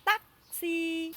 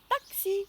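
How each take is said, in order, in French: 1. Il est prononcé avec un accent vietnamien. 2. Il est prononcé avec un accent français. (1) "avec l'accent vietnamien" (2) "c'est presque comme en français"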